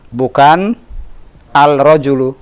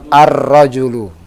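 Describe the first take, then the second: First: A clear L is heard before the R. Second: The L merges into a doubled R sound. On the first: The speaker calls it wrong. "Salah kalau kita bilang al-rajulu" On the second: The speaker calls it right. "Yang betul ar-rajulu"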